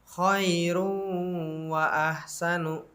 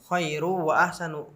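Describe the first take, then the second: First: A nasal hum is held for two beats. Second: It runs straight on with no nasal hum. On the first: The speaker calls it right. "Itu dibaca dengan idgham bigunnah" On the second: The speaker calls it wrong. "enggak dibaca seperti itu"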